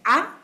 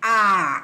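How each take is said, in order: First: The vowel is said short. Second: The vowel is said long. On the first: "the short one" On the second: "the long A"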